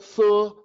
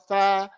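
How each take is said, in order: First: The syllable has a rounded 'u' vowel. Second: The syllable has an open 'a' vowel. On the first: The speaker calls it wrong. "don't say thaqil, thu" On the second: The speaker calls it right. "huwa tha"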